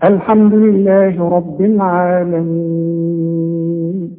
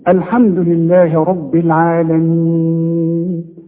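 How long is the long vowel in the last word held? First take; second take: long; medium. First: The final long vowel is held very long. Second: The final long vowel is held moderately. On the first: "وستة" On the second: "واربعة"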